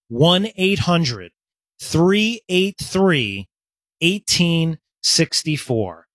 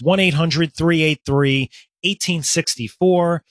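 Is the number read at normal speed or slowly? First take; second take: slowly; normal. First: The number is read slowly. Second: The number is read at normal speed.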